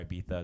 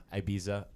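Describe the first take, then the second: First: "Ibiza" with a th, eye-BEE-thuh; Spanish-style Ibiza. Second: "Ibiza" with a plain z, eye-BEE-zuh; English-style Ibiza. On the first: Host giving listeners the alternative, "Ibiza" with a th sound. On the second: Host telling listeners how to pronounce it, "Ibiza" with a z sound. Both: Shown as a demonstration. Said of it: "depending on how you pronounce it".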